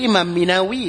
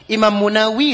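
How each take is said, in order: First: มีนาวี pronounced "Mi-na-wi"; i-vowel reading. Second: มูนาวี pronounced "Mu-na-wi"; u-vowel reading. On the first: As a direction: say มีนาวี with "mi" first. (อ่าน มีนาวี ด้วยสระอี) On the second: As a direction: say มูนาวี with "mu" first. (อ่าน มูนาวี ด้วยสระอู) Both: Shown as a demonstration. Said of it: "ถ้าสระก็สระอ่านก็ได้".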